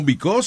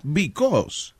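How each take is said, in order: First: "Because" read letter for letter as beh-cah-OO-seh; spelling pronunciation. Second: "because" said bee-KOS; English pronunciation. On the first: Host jokes about spelling, "Because" read out in Spanish sounds. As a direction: say "Because" as if it were a Spanish word. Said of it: "because se escribe Because". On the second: Host mock-teaches English, "because" said bee-KOS. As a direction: say "because" in accented English, stress on the end. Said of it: "pero se pronuncia". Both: Shown as a demonstration.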